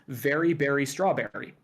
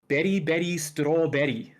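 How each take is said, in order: First: The first word begins with a v sound. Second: The first word begins with a b sound. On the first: "based off of U S English pronunciation" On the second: "they don't have that v sound. So they just say"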